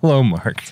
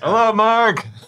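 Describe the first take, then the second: First: It is said in his normal voice. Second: It is said in a thrown, disguised voice.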